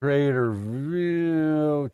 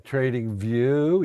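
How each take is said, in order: First: Slow drawn-out Trader View; wrong name. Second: Trading View said as a quick correction; the right name, Trading View; corrected name. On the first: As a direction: read out Trader View slowly and carefully. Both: Shown as a demonstration.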